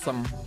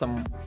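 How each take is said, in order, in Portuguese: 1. A vogal é curta e reduzida para schwa. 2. A vogal é curta e reduzida para schwa.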